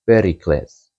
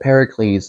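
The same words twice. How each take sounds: First: The name is pronounced the Greek way. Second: The name is pronounced the English way. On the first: "if you consider the Greek pronunciation" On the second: "the way we pronounce it in English"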